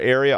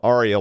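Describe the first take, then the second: First: It is said like the everyday word 'area'. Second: It is said like the opera word 'aria'. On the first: The speaker calls it wrong. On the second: The speaker calls it right.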